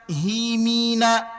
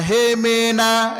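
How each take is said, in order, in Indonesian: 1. Vokalnya bunyi ee yang jelas. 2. Vokalnya bunyi eh yang terbuka. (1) "Kasrah, bunyikan huruf i" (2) "Jangan hemena"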